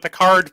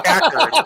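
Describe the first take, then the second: First: The word sounds like Picard, in an Australian accent. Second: The word sounds like Packard, in an American accent. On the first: "I have another Australian friend" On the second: "it's it's Packard"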